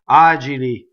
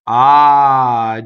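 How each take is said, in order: First: It is said fast. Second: It is said slowly and smoothly.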